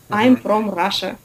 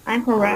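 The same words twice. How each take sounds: First: The r is hard and rolled, Russian-style. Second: The r is soft with the tongue curled up. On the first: The speaker calls it wrong. "Русских же сразу видно. Жесткое" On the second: The speaker calls it right. "кончик языка поворачивается наверх"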